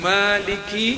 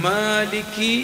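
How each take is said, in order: No difference in how they are said.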